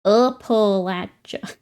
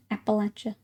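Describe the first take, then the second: First: Appalachia drawn out slowly, each syllable apart, -latch- in the middle; slow careful Appalachia. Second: Appalachia said quickly and softly, starting like apple, -latch- in the middle; apple-first Appalachia. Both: Shown as a demonstration. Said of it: "Everybody's saying apple".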